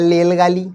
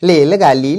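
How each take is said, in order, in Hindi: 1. यह शब्द वैसे कहा गया है जैसे एक छोटा बच्चा कहेगा। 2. यह शब्द वैसे कहा गया है जैसे एक छोटा बच्चा कहेगा।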